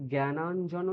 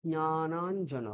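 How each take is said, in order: First: জ্ঞানাঞ্জন as gae-naan-jano, oral g start; hard g, open ae in জ্ঞানাঞ্জন; wrong pronunciation. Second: জ্ঞানাঞ্জন drawn out slowly with nasal nya; slow, nasal start to জ্ঞানাঞ্জন; Sanskrit pronunciation. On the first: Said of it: "এটা বলবো না". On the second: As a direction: slowly model জ্ঞানাঞ্জন as nya-naan-jana. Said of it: "আমরা কি বলবো". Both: Shown as a demonstration.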